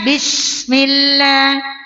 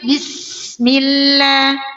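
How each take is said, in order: First: The s is said with a strong, heavy hiss. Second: The s is said with a light, thin hiss. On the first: The speaker calls it wrong. "bukan dibunyikan Bismillah" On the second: The speaker calls it right. "tapi Bismillah"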